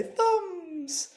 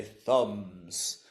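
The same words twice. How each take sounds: First: "Thumbs" sung out very high. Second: Said in the usual way. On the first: Shown as a demonstration. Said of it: "we're gonna go high and say". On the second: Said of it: "And then we're gonna say".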